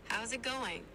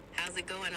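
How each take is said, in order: First: Easygoing Australian accent; Aussie accent. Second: Casual British accent. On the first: AI assistant demonstrates for the user, Aussie accent. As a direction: ask it like an Australian. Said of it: "Can you do an Aussie accent?". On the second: AI assistant demonstrates for the user, British accent. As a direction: ask it like a Brit. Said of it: "Here's one in a British accent". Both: Shown as a demonstration.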